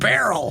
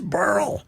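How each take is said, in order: First: The name is said with two syllables. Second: The name is said with one syllable. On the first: The speaker calls it wrong. "They're pronouncing it barrel" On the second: The speaker calls it right. "it's Burl"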